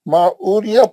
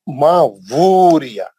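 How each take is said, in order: First: The second word starts with a plain vowel. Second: The second word starts with a W sound. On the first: The speaker calls it wrong. "गलत है" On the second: The speaker calls it right. "डब्ल्यू के साथ पढ़ना"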